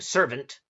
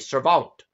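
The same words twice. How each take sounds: First: The word has its usual modern pronunciation. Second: The word has an older, French-influenced pronunciation. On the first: "instead of saying servant" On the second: "I'll say servant"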